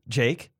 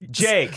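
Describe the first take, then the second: First: The name is said at a normal, quiet volume. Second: The name is said more loudly.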